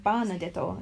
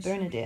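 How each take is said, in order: First: "Banadetto" with open a and final o; Japanese-style pronunciation. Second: Said in the usual way. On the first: Shown as a demonstration. Speaker explains her Japanese name, Japanese-style "Banadetto". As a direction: turn Bernadette into Japanese "Banadetto". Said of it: "what my Japanese name would be". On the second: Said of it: "instead of Bernadette".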